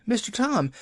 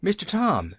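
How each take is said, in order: First: Wailing call pitched even higher; second call, more desperate; higher wailing Nancy. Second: High wailing call to Tom; wailing Nancy. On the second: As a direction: cry out his name in distress. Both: A narrator's reading. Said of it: "she wailed".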